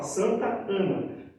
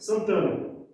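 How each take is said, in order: First: The two words are kept clearly separate. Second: The two words are run together as one. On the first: This is how Brazilians say it. "no português brasileiro a gente fala Santa Ana" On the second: This is how it is said in Portugal. "no português de Portugal eles juntam tudo"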